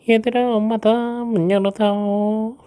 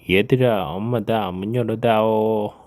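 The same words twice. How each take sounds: First: The wolf's voice sounds soft, like mother's. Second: The wolf's voice sounds rough and strange.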